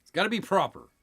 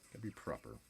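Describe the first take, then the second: First: Light mock British accent; a hint of posh British accent. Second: Quiet mock British accent aside; soft British accent. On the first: Joking about pinky fingers in a mock British accent. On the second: Repeating the line to himself in a soft mock British accent. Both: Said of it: "Very British".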